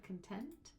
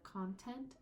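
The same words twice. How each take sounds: First: "content" as con-TENT, second syllable stressed. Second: "content" as CON-tent, first syllable stressed. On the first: Teacher shifting stress for meaning, weight on second syllable. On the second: Teacher shifting stress for meaning, weight on first syllable. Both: Shown as a demonstration. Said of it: "the stress of the word".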